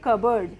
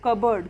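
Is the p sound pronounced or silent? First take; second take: silent; silent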